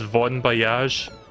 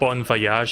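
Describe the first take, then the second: First: The name starts with a V sound. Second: The name starts with a B sound. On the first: The speaker calls it right. "it's Von Voyage" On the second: The speaker calls it wrong. "it's not Bon Voyage"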